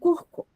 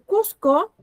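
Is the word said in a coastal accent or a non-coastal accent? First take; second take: coastal; non-coastal. First: It is said in a coastal accent. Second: It is said in a non-coastal accent.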